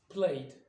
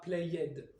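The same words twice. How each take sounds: First: The ending is a plain d sound. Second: The ending is a separate ed syllable. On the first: The speaker calls it right. "Play va donner played" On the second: The speaker calls it wrong. "et non pas played"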